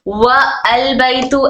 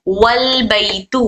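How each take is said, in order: First: Wa and al are said separately, keeping the vowel. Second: Wa joins straight onto l, dropping the vowel. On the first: The speaker calls it wrong. "ऐसा पढ़ेंगे तो ये रॉन्ग हो जाएगा" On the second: The speaker calls it right. "मिलाकर पढ़ने की सूरत में हम सीधा वाव को अल से लाम से मिलाए"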